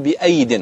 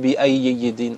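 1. تُقرأ الكلمة بصوت 'y' واحد. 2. تُقرأ الكلمة بصوت 'y' زائد. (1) "أنت تقول بأيد" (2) "ولا تقول بأيد"

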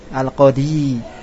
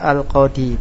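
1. Bunyi 'y' di akhir itu bertasydid dan ditahan. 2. Bunyi 'y' di akhir itu pendek dan tunggal. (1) "kalau bertasdid antum baca al-qadi" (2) "maka tetap dibaca al-qadi, bukan menjadi bertasdid ya"

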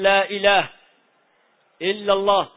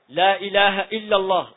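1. توجد وقفة بعد الكلمتين الأوليين. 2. تُقال العبارة كلها دون وقفة. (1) "هل هذا يجوز؟ ما يجوز" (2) "لابد أن يصل النفي بالاستفهام"

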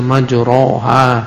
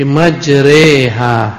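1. Vokal setelah r adalah 'a' terbuka. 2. Vokal setelah r condong ke 'e'. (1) "Tak boleh dibaca majroha" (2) "tapi majreha"

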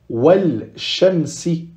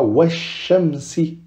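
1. On prononce un l avant le son sh. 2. On n'entend aucun l ; le sh est doublé. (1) "on ne dira pas Walshamsi" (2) "On dédouble le shin"

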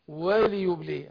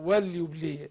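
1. اللام بعدها كسرة قصيرة. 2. اللام ساكنة، ملهاش حركة بعدها. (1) "لا وليبلي عشان مكسوره" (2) "اللي كتير بيسكنوها"

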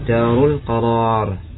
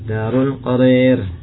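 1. Vokal panjang di akhir adalah a terbuka biasa. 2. Vokal panjang di akhir condong ke e.

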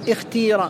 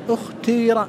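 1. الحركة الطويلة صوت كسرة خالصة. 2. الحركة الطويلة كسرة مع استدارة الشفتين. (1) "بكسر الأول والثالث" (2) "الإشمام"

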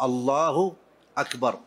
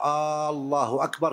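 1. الحركة الأولى قصيرة. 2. الحركة الأولى ممدودة طويلة. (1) "لا بد أن تكون بهذا اللفظ الله أكبر" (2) "ألا يمد الهمزة ... كأنه يستفهم"

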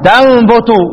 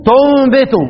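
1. الحركة الأولى فتحة، والثانية ضمة. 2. الحركة الأولى ضمة، والثانية كسرة. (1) "الباقون يقرؤون" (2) "وصف ضم تو واكسر الباء تنبت"

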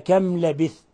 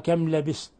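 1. الحرف الساكن صوت 'th'. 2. الحرف الساكن صوت 's'.

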